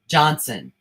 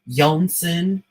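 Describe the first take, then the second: First: The name starts with a J sound. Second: The name starts with a Y sound. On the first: The listener corrects the name out loud. The speaker calls it right. "I have to say out loud, Johnson" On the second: Someone else said the name this way. The speaker calls it wrong. "if the person is pronouncing it Yonson"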